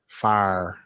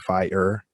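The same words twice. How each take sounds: First: It is said with a Southern US accent. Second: It is said with a Canadian accent. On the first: "they would say fire" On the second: "We say fire"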